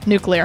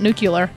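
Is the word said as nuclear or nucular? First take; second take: nuclear; nucular. First: The word is said as nuclear. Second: The word is said as nucular. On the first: The speaker calls it right. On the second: The speaker calls it wrong.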